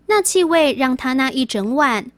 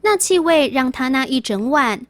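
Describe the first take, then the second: No difference in how they are said.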